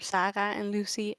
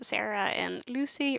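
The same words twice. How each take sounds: First: The names are pronounced the Dutch way. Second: The names are pronounced the English way.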